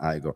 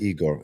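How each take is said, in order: First: The name is said the American way. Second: The name is said the Italian way. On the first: "in American Igor" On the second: "in Italian I say Igor"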